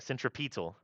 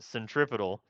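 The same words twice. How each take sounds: First: It is said in a British accent. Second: It is said in an American accent. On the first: "as across the pond, they call it centripetal" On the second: "Freedom Unit American, they say centripetal"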